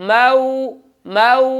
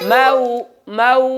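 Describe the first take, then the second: No difference in how they are said.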